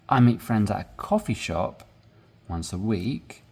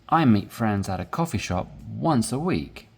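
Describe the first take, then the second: First: One part of the sentence gets raised emphasis. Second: All parts of the sentence get even stress. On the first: "So if you emphasize here" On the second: "This is a regular way of talking. You're emphasizing both of them equally"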